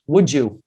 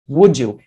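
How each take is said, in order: First: The d and y blend into a j sound. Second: The d and y blend into a j sound.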